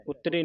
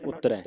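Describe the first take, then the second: First: "ਉਤਰੇ" ending in a close "ay" vowel; mistaken -e ending. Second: "ਉਤਰੈ" ending in an open "eh" vowel. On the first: Teacher shows students the mistake, "ਉਤਰੇ" with close -e ending. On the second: Teacher corrects the students' reading, "ਉਤਰੈ" with open -ai ending. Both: Shown as a demonstration. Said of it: "ਉਤਰੇ ਨਹੀਂ ਪੜ੍ਹਨਾ".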